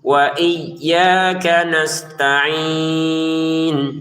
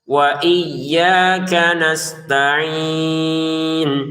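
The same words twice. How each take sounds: No difference in how they are said.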